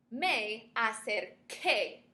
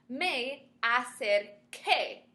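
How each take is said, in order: First: Acerqué again slowly, hard k in qué; repeated model of me acerqué. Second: Acerqué said slowly with a hard k sound; slow model of me acerqué. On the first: Teacher repeats acerqué so students hear the k sound. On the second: Spanish teacher modelling acerqué slowly for students. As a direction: spell out acerqué slowly, qué with a clear k. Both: Shown as a demonstration. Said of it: "the sound is Q U E".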